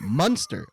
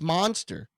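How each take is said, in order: First: The first vowel sounds like 'mun'. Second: The first vowel sounds like 'mon'. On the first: The speaker calls it wrong. "They're not Munster cheese" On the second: The speaker calls it right. "It's an O"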